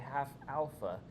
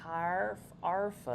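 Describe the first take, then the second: First: The first word is said without an R sound. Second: The first word is said with an R sound. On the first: This is the term as written in the textbook. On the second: This is how the foreign-accented lecturer said it.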